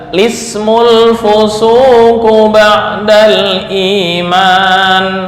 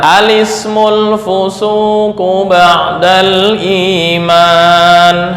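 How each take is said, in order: First: It begins directly with the l sound. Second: It begins with an a vowel before the l. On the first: "menghilangkan hamzah wasal dan memulai dengan lam" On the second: "Di sini memulai hamzah dan dibaca fathah, diikuti lam yang dibaca dengan kasroh"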